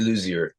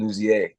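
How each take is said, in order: First: The name is said with an English pronunciation. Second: The name is said with a French pronunciation. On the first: "I say Ray Luzier" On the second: "if there's a French pronunciation"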